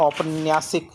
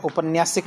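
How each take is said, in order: First: "औपन्यासिक" opened with a full au sound; correct form. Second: "उपन्यासिक" said with a short u sound at the start; wrong form. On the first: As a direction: start "औपन्यासिक" on a clear au, the right way. ("औपन्यासिक" को औ से, सही उच्चारण) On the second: ("उपन्यासिक" को छोटे उ से, गलत उच्चारण) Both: Shown as a demonstration. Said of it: "नहीं होता".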